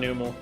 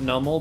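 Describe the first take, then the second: First: The first vowel is long, like 'noo'. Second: The first vowel is short, like 'nuh'. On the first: The speaker calls it right. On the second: The speaker calls it wrong.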